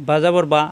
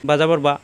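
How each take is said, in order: The two takes are said the same way.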